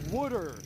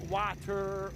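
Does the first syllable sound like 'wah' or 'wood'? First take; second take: wood; wah. First: It is pronounced like 'wooder'. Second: It is pronounced with the usual 'wah' vowel. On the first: The speaker calls it right. "W O O D E R. That is the proper way to say water" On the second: The speaker calls it wrong. "It's not water"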